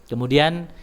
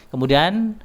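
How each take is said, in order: Both takes have the same delivery.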